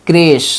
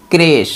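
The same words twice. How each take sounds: The two takes are said the same way.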